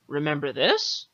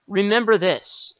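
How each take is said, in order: First: "Remember this?" with "this" rising as a question; re-read as a question, "this" going up; question tune. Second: "Remember this" read flat as a statement, falling at the end; a loud read-out with "this" dropping; statement tune. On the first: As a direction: lift the end of "Remember this?" into a question. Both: Shown as a demonstration. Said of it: "It's got a question mark on it at the end".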